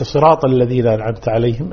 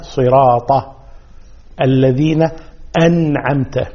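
First: صراط الذين أنعمت عليهم run together, vowel after صراط swallowed; missing fatha. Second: صراط الذين أنعمت word by word, full "siraata"; open ta. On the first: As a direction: hurry through صراط into الذين. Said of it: "وليس". (وصل صراط الذين بلا فتحة واضحة) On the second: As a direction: separate each word, final a clear in صراط. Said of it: "إنما". (صراط الذين أنعمت بحركات واضحة) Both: Shown as a demonstration.

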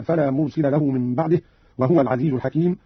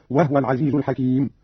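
First: Said in the usual way. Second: وهو as "wah-wa", no vowel on the h; silent-vowel ha. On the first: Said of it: "قرأ قالون بإسكان الهاء". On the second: Shown as a demonstration. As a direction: close the ha in وهو before the second waw. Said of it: "بإسكان الهاء تخفيفا هكذا". (وهو بإسكان الهاء)

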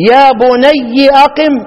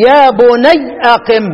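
First: يا بني drawn out slowly, ending in a clear bunayyi; slow recited يا بنيِّ with the final i sounded; kasra reading of يا بني. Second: يا بني said slowly with the ending stopped as bunay; slow recited يا بنيْ with a silent ending; sukun reading of يا بني. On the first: Teacher showing students one Quran reading, slow and drawn out. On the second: Teacher showing students another Quran reading, slow and measured. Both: Shown as a demonstration. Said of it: "ثلاث قراءات".

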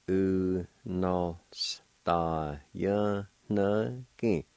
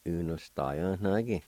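First: Drawn out very slowly, syllable by syllable; slow teaching pronunciation; slow syllable demo. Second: Said in the usual way. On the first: Shown as a demonstration. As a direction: stretch each syllable of Unostajanagi slowly. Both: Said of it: "And it's pronounced like this".

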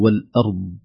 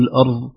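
First: والأرض with a clear ض; correct ض. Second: الأرض with the ض said as ظ; wrong, ض like ظ. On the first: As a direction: model the ض in والأرض. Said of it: "كلمة". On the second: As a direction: show the mistake: ظ instead of ض in الأرض. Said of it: "لا نقول". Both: Shown as a demonstration.

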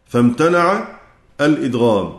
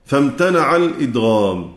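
No difference in how they are said.

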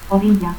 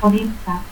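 First: Said in the usual way. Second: Orilla as "oritsa"; altered LL. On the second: Shown as a demonstration. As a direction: harden the LL of Orilla. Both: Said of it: "teísmo".

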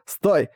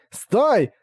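First: Urgent stop. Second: Desperate shout. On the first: King begs to stop. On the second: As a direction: scream Стой! in panic. King begs to stop, louder. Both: Acted.

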